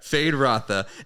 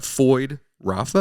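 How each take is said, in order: First: The first name's vowel sounds like 'ay'. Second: The first name's vowel sounds like 'oy'. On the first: The speaker calls it right. "I wasn't saying it right" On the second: The speaker calls it wrong. "Am I saying that right?"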